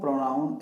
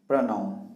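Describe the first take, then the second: First: The first vowel is a full 'o' sound. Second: The first vowel is short and reduced. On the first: The speaker calls it wrong. "इसको प्रोनाउन actually में नहीं बोला जाता" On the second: The speaker calls it right. "इसको बोलो क्या बोलते हैं? प्रनाउन"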